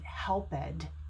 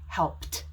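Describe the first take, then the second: First: The word is said with two syllables. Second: The word is said with one syllable. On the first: The speaker calls it wrong. "we would not pronounce it helped" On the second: The speaker calls it right. "See how it's one syllable?"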